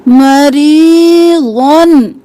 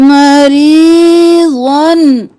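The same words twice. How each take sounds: The two takes are said the same way.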